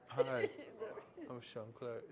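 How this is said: It sounds stiff and robotic.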